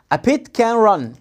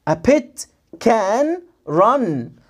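First: Words linked in one phrase; connected, measured reading drill; joined-up model reading. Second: Very slow, words stretched and separated; slow model reading with long gaps; word-by-word sounding out. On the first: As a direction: run the words together without gaps. Then reads it joined up. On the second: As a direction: stretch each word out for a beginner. Teacher first sounds out word by word. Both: Shown as a demonstration.

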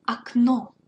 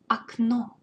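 First: Окно said ahk-NO, stress on the end; loud clear model of Окно; teacher demonstrating Окно; unstressed O as A. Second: Окно with NO stressed, first O as ah; stress on the end. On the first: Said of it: "the unstressed O, which sounds like A". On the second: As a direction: hit the last syllable of Окно. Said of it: "make emphasis on the end". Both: Shown as a demonstration.

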